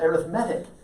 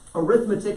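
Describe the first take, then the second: First: The stress is on the third syllable. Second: The stress is on the second syllable. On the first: The word is an adjective. "if you put the emphasis on the uh, third syllable" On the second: The word is a noun. "You put the emphasis on the second syllable"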